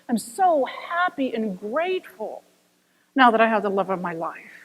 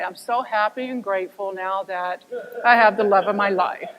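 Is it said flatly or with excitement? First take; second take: with excitement; flatly. First: It is said with ecstatic, excited emotion. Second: It is said flatly, without emotion.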